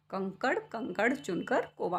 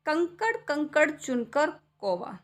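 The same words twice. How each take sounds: First: Said in the usual way. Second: Slow, sing-song कंकड़ कंकड़ recital; poem recitation. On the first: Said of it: "अगर मान लो हम यहाँ पे अंक की बिंदी को हटा देते". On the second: Acted. Poem line. (कविता पाठ का लहजा)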